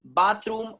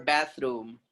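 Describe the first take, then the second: First: Bathroom as "BAHTH-room"; long ah vowel in Bathroom; British pronunciation. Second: Bathroom as "BATH-room" with a as in cat; short flat a in bathroom; American pronunciation. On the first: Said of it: "is British sound". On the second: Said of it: "And American people". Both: Shown as a demonstration.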